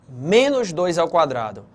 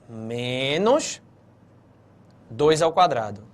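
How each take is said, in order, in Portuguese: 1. Não há pausa depois da primeira palavra. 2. Há pausa depois da primeira palavra. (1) "preste atenção à forma que eu vou ler esse caso A" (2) "Menos, olha a pausa"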